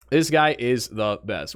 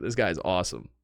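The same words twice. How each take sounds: First: Said in the usual way. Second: Lower, softer mock gush on "guy"; low, soft, "This guy is awesome" with "guy" leaned on; geeking out. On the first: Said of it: "plain restatement". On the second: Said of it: "I was geeking out".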